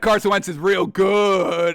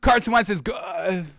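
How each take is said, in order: First: It is said in a sarcastic tone. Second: It is said in a sincere tone.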